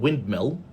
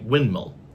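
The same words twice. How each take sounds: First: The d sound is clearly pronounced. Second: The d sound is dropped entirely. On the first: "instead of saying windmill" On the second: "So where is the D? It's gone"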